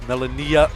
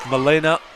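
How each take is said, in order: First: The name is said as Melania. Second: The name is said as Milena. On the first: The speaker calls it right. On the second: The speaker calls it wrong.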